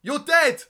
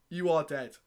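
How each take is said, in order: First: High, very loud mock-furious shout; explosive, hammed-up accusation; slam poetry. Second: Restrained, deliberate restatement; mock-grave poet, every word separate; slam poetry. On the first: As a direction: yell it like an angry slam poet. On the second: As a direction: pull back from the shout, dead serious act. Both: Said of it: "I'm gonna perform this poem".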